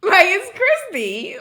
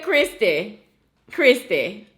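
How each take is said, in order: First: Christy said carefully and slowly, high and louder; correct Christy. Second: Christy with a Louisiana lilt; how he says Christy. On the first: Shown as a demonstration. Correcting him on how to say her name Christy. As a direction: stress the proper way to say Christy. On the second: Retold or imitated. Imitating how he says her name, Christy, Louisiana style. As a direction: say Christy the way he does. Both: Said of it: "the way you even say my name".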